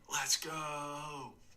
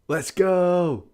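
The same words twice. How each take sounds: First: It is said in a flat, calm tone. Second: It is said in an excited tone.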